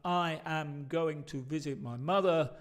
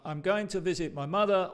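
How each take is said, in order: First: Said in the usual way. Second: "I'm going to" run together as spoken; natural contraction. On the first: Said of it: "en cambio de escuchar". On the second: Shown as a demonstration. Teacher shows the real-world version with natural contraction. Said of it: "en el mundo real vas a escuchar".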